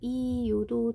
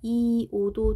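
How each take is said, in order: First: The final vowel has a y-glide, sounding yo. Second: The final vowel is a plain o, no glide. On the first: "이요도 돼요" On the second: "이오도 되고"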